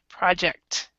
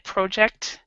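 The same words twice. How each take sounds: First: The first vowel sounds like an open 'ah'. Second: The first vowel sounds like a rounded 'oh'. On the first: "American English we say pra ah" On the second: "in British it's it, we they do more of an o sound"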